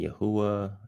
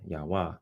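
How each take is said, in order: First: The name is said in a longer form. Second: The name is said in a shorter form. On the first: "some people will say Yahuwah" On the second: "I'm going to shorten it up and just say Yahweh"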